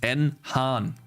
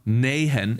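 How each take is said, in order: First: A separate letter N comes before Han. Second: The name is run together as one word. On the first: The speaker calls it right. "it's N Han" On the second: The speaker calls it wrong. "It's not Nahan"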